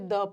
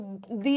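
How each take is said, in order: First: The word ends in a short 'uh' vowel. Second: The word ends in a long 'ee' vowel. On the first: The next word starts with a consonant sound. "Consonant के साथ लगा है तो वहां पे द पढ़ना" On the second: The next word starts with a vowel sound. "Vowel sound के साथ लगा है तो दी एप्पल बोलना"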